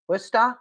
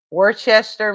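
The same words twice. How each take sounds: First: Worcester said as WUSS-tah, two syllables, dropped r; Worcester clipped to wuss-tah, checking it with a rising question; local pronunciation. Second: Worcester said as wor-chester, every letter sounded; spelled-out misreading. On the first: Told how locals say it, Worcester tried as wuss-tah. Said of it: "Pronounced Worcester". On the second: Struggling with the town name, Worcester said as wor-chester. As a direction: read Worcester as worse-chester, all syllables. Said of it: "I can't even say that word". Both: Shown as a demonstration.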